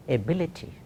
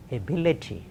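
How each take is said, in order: Both takes have the same delivery.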